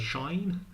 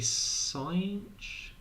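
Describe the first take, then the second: First: It is said like 'shine', starting with sh. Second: It is said like 'sinch', ending in a ch sound. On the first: "some people say Shine" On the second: "I say Cinch for this one"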